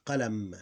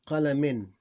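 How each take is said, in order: First: "qalam" closing on a held m; vowel ending ignored. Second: "Qalamin" with the -in sounded, louder; tanween ending. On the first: Teacher showing the pause form, vowel ending dropped. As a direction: say "qalam" with nothing after m. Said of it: "We ignore the vowel". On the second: Teacher giving another example, tanween ending pronounced. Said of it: "when tanween ending". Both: Shown as a demonstration.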